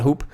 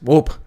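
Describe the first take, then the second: First: The vowel is a plain long 'oo' sound. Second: The vowel glides like a 'wo' sound. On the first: The speaker calls it wrong. "but it's not hoop" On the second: The speaker calls it right. "It's Dwope"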